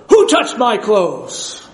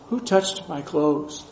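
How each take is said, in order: First: It is said in a harsh, demanding tone. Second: It is said in a gentle, compassionate tone.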